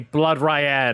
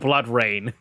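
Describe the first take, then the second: First: The second word sounds like the name Ryan. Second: The second word sounds like the word rain. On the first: The speaker calls it wrong. "never in my life have I ever heard anybody say Blood Ryan" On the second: The speaker calls it right. "instead of Blood Rain"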